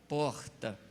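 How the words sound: It is said in a Northeastern Brazilian accent. This is how people speak back home. "Vem uma pessoa do Nordeste lá, vem para cá, lá fala porta"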